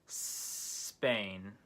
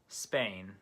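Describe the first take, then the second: First: The word starts with a long hissing s. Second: The word starts with a short s sound. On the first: "try making a s hissing sound before the word" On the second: "shorten your S sound until it sounds like a native English speaker"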